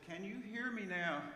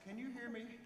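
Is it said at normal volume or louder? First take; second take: louder; normal. First: It is said a little louder. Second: It is said at normal volume.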